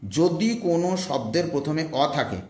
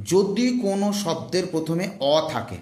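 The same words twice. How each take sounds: The two takes are said the same way.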